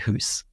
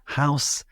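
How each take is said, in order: First: The vowel is a long 'oo' sound. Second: The vowel is an 'ow' glide. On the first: Some other speakers say it this way. "there are some people who would say hoose" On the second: This is the speaker's own pronunciation. "the reason why I say house"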